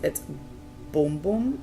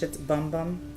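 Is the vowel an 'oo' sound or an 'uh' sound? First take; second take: oo; uh. First: The vowel is a long 'oo' sound. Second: The vowel is a short 'uh' sound. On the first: This is the Portuguese pronunciation. "If it is pronounced in Portuguese" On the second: This is the English pronunciation. "But in English"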